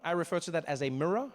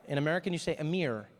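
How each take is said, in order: First: Mirror said as mirra, no final R; South African mirror. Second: Mirror said as meer, one syllable; American mirror. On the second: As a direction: mirror clipped short like meer. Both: Shown as a demonstration.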